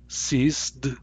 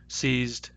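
First: An S sound comes before the final D. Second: A Z sound comes before the final D. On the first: "If I say these with S instead" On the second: "These words have Z"

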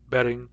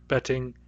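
First: The middle consonant is a soft flap. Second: The middle consonant is a clear T. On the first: It sounds the same as bedding. "at fluent speed, I think these are pronounced identically. Betting, betting, in our accent" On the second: It sounds distinct from bedding. "A person speaking standard British English would pronounce these betting and bedding. They would be clearly different"

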